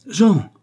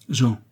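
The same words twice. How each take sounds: First: High, loud, shocked call; stupefied cry. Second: Understated hurt call of the name; pained. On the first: Mother struck by her little son, stupefied exclamation. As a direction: cry the name out in astonishment. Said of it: "fit Geneviève stupéfaite". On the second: Mother wounded by her son's words, pained appeal. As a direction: say the name with a touch of sorrow. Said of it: "prise d'une telle douleur". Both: A narrator's reading.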